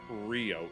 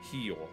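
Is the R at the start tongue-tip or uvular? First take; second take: tongue-tip; uvular. First: The R is made with the tongue tip. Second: The R is made in the throat, uvular. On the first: The speaker calls it wrong. "it's not Rio" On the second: The speaker calls it right. "it's Rio. Rio de Janeiro is how they say it"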